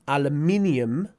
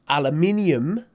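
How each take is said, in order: No difference in how they are said.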